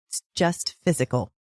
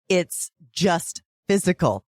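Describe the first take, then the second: First: It is said at a quieter volume. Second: It is said at a louder volume.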